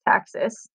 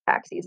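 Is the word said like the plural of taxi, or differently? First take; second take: differently; taxi plural. First: It does not sound like the plural of taxi. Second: It sounds like the plural of taxi. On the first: It is the biology term for movement toward or away from a stimulus. The speaker calls it right. "it's taxis" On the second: It is the word for more than one cab. The speaker calls it wrong. "spelled like taxis, but it's not taxis"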